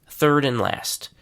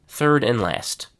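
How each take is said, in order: The two takes are said the same way.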